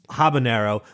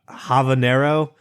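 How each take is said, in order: First: The middle consonant is a b sound. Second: The middle consonant is a v sound. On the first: The speaker calls it right. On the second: The speaker calls it wrong.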